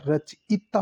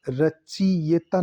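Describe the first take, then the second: First: रचयिता said as "rach-itaa"; slow, careful "rach-I-taa" for रचयिता; correct pronunciation. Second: रचियता said as "rachi-yeta"; slow, mistaken "rachi-YE-ta" for रचियता; wrong pronunciation. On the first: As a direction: sound out रचयिता slowly with a short "i" before taa. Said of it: "रचयिता होता है". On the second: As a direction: sound out रचियता with a "ye" before the ta. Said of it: "रचियता नहीं होता". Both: Shown as a demonstration.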